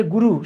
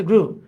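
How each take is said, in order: First: গুরু in two syllables, goo-roo; mistaken reading. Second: গ্রু as one syllable, groo; corrected pronunciation. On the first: Retold or imitated. Teacher voicing a common misreading of grew, গুরু as goo-roo. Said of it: "অনেকে চিন্তা করবে". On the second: Shown as a demonstration. Teacher correcting the guru misreading, গ্রু said as one syllable groo. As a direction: join g and r tightly in গ্রু, groo. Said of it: "এটা হচ্ছে গ্রু".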